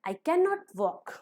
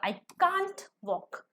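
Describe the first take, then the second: First: Cannot is said as two full separate words. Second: Cannot is contracted into one short syllable. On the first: "कैन नॉट" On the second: "कैन नॉट को कांट बोला जाता है"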